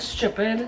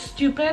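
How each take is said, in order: First: The t sounds like ch. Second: The t is a plain t sound.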